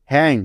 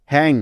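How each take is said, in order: Both takes have the same delivery.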